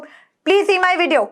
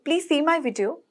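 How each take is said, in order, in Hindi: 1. यह कठोर और हुक्म भरे लहजे में बोला गया है। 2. यह गर्म और नरम लहजे में बोला गया है। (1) "it will be the rude one" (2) "प्यार से बोलूंगी"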